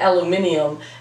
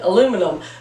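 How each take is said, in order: First: It is said with a British pronunciation. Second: It is said with an American pronunciation. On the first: "he said aluminium" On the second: "I said aluminum"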